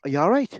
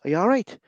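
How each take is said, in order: First: It is said in a worried, concerned tone. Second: It is said in a worried, concerned tone.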